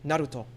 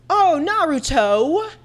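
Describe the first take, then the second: First: "Naruto" with a light tapped r and short final o; "Naruto" unstressed, vowels kept short; Sasuke's version. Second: Very Americanized "Naruto", final "to" forced into a long, loud TOE; high, loud, slow "Naruto" with a blunt American "toe"; Sakura. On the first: Shown as a demonstration. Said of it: "probably Sasuke's version". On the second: Retold or imitated. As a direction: drag out and punch the end of "Naruto". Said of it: "she would say it very Americanized".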